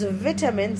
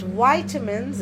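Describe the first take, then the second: First: The word has a British pronunciation. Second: The word has an American pronunciation. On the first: "this is read as vitamins in British English" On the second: "but vitamins in British, sorry, in American English"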